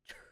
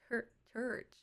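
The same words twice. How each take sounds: First: Church clipped short and quick. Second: Church drawn out long, vowel stretched. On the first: Shown as a demonstration. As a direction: church said fast in her own way. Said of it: "But I say church". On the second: Retold or imitated. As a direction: church said long like her mom. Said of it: "My mom says church, like, long".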